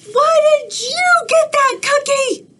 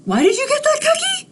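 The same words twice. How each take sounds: First: Much higher, louder jealous squawk; a furious cartoon bird; outraged pigeon voice; angry pigeon. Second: Much higher and fast, pressing the question; a jealous bird demanding again; rapid-fire squawking pigeon; angry pigeon. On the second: Acted. Pigeon repeats faster.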